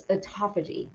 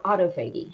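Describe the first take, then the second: First: Autophagy with stress on TAH and a soft g; autophagy run together as "aw-TOFF-uh-jee"; autophagy, stressed second syllable. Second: Autophagy as auto plus FAY-ghee, hard g; autophagy with a long A and a hard g; alternative autophagy pronunciation. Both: Shown as a demonstration. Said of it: "however you want to pronounce it".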